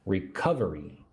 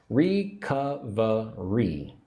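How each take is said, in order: First: Said in the usual way. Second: "Recovery" slowly split as re-CUV-uh-ree; four syllables. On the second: Shown as a demonstration. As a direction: draw out "Recovery" in four separate beats, second stressed. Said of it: "four syllables".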